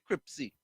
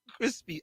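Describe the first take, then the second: First: The p sound comes before the s sound. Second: The s sound comes before the p sound. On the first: "I say Cripsy" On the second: "Instead of saying crispy"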